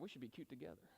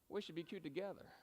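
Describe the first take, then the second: First: It is said quickly with little emphasis. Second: It is said slowly with strong emphasis. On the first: The speaker calls it wrong. "I just gave you the wrong" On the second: The speaker calls it right. "you got to slow down. You got to put that emphasis in there"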